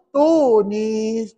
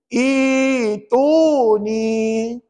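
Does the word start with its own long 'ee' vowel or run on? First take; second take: runs on; own vowel. First: It runs on from the previous word, no 'ee'. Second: It starts on its own with a long 'ee' vowel. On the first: The recitation continues from the previous words. "Saya nak baca wa qala fir'aunu tuni" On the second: Recitation begins at this word. "Dia kena gini"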